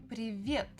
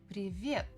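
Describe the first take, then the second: The two takes are said the same way.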